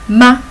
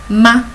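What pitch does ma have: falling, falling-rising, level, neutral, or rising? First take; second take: neutral; neutral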